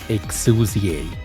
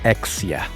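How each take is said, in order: First: The name is said as Exusie. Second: The name is said as Exia. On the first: This is how the character says it herself. The speaker calls it right. "She herself says it as Exusie" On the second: This is the older common way fans say it. The speaker calls it wrong. "everyone has been calling her Exia"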